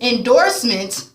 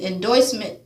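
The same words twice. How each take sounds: First: "endorsement" said slowly with a clear OR; slow, deliberate en-DORS-ment for "endorsement"; corrected pronunciation. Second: "endorsement" slipped into en-DOYS-ment; stumbled pronunciation. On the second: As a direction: say "endorsement" with OY in place of OR. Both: Real, not acted. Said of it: "sorry, y'all".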